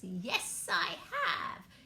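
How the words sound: It is said in a witch's voice.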